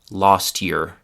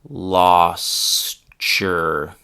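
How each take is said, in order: First: The phrase is said at normal speed. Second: The phrase is said slowly and carefully.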